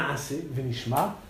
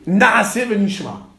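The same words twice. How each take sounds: First: Said in the usual way. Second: Naase Venishma, slow and weighty, every syllable marked; solemn citation. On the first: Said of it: "nous ferons et nous entendrons". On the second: Shown as a demonstration. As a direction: proclaim Naase Venishma slowly like a sacred verse. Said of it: "comme il est dit". (citation lente et solennelle de Naase Venishma)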